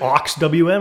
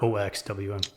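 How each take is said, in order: First: The first part is said as one word. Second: The first part is spelled out letter by letter. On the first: "is it aux W M" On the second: "or O X W M?"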